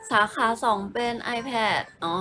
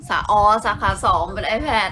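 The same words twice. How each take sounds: First: Drawn-out, slow reading aloud; slow reread. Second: Slow, laughing as it clicks; laughing realization. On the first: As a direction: spell it out slowly to yourself. (อ่านช้าๆ ลากเสียง) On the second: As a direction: catch on with a laugh, drawn out. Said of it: "กำลังประมวลผลว่า". (หัวเราะเมื่อนึกออก พูดช้าๆ) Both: Real, not acted.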